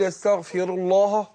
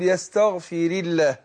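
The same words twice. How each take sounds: First: The L in Allah is heavy and full. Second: The L in Allah is light and thin. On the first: The speaker calls it wrong. "ينفع اقول يستغفر الله؟ ما تجيش" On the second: The speaker calls it right. "رققت"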